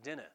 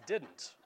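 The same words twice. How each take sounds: First: "didn't" nasal, the d's dropped, like "dinna"; sloppy Hoosier "didn't". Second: Said in the usual way. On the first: Shown as a demonstration. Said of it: "That word is not". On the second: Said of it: "That word is".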